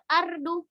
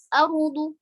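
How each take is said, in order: First: The r sound is light and thin. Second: The r sound is heavy and thick. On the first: The speaker calls it wrong. "bukan seperti itu" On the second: The speaker calls it right. "ro-nya di situ posisinya tafkhim atau tebal"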